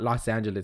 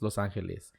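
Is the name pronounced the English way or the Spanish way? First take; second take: English; Spanish. First: The name is pronounced with English sounds. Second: The name is pronounced with Spanish sounds. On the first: The speaker calls it wrong. "it's not Los Angeles" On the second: The speaker calls it right. "you have to pronounce in Spanish"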